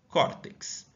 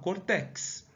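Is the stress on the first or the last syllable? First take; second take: first; last. First: The stress is on the first syllable. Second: The stress is on the last syllable. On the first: The speaker calls it right. "eu falo córtex... Na penúltima posição, ela é uma paroxítona" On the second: The speaker calls it wrong. "eu não falo cortex"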